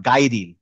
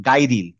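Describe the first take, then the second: The two takes are said the same way.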